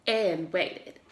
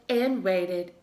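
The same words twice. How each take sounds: The two takes are said the same way.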